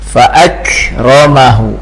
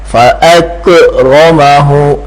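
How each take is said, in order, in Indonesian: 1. Bunyi k bersih, napasnya mengalir. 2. Bunyi k memantul dengan gema. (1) "bukan qalqalah" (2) "dia qalqalah fa akramahu. Nah, enggak boleh ya"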